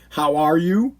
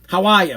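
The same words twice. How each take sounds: First: It is said with a general, standard accent. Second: It is said with a local Boston accent. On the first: This is not how people locally talk. "We don't say" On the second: This is how people locally talk. "That's how we talk here"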